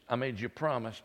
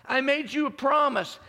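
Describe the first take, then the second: First: Calm reassurance. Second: High and loud, pressing on promise; loud proclaimed promise. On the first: God reminds Abram and Sarah, calm and reassuring. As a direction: reassure gently, like a promise kept. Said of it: "God reminds Abram and Sarah". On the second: Preacher voicing God to the congregation, loud proclamation. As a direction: declare it to the whole room. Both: Acted.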